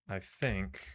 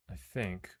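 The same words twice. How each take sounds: The two takes are said the same way.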